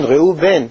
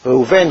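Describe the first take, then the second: First: "ראו בן" as two separate words, stress on בן; name split in two. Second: Said in the usual way. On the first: Shown as a demonstration. Teacher unpacking a name's meaning for listeners, split in two words. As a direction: break it into "ראו" and "בן". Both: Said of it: "לשון ראייה".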